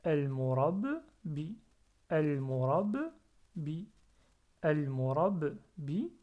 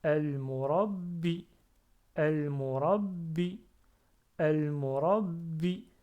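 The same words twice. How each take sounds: First: "El murab" appuyé, courte pause, puis "bi" plus léger; syllabes séparées. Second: "El murabbi" fort, d'un seul tenant, b redoublé; enchaîner sans pause le b retenu et le "bi" de "El murabbi"; syllabes compressées. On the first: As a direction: couper entre "El murab" et "bi". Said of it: "je peux décomposer cela". (« El murab… bi » décomposé lentement) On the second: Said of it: "j'essaie de compresser ces deux-là". (« El murabbi » lié, shadda sur le b) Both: Shown as a demonstration.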